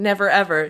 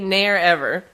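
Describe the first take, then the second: First: The v in the first word is pronounced. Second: The v in the first word is dropped. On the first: "Instead of saying never ever" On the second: "Drop your G's and V's in word"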